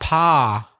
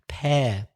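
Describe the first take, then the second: First: The vowel is an open 'pa' sound. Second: The vowel is the 'air' sound. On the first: The speaker calls it wrong. "not pa" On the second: The speaker calls it right.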